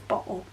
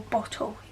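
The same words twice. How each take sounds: First: The middle T is dropped or glottalised. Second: The middle T is clearly pronounced.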